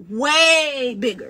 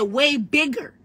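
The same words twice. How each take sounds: First: "Way bigger" drawn out slowly, leaning on "Way"; slow emphatic "Way bigger"; slow, stressed insistence. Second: Said in the usual way. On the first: Retold or imitated. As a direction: stretch "Way bigger" to hammer it home. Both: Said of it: "I said, "Way bigger".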